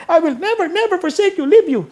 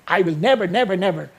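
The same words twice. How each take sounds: First: Put-on high, fast, eager child voice, much higher; child talking to grandma. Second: Said in the usual way. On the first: Grandchild telling lola about the Greek, high eager child voice. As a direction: squeal it out like an excited grandkid. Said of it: "Sabi niya". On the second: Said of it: "totoong ganun ang pagkakasulat nun".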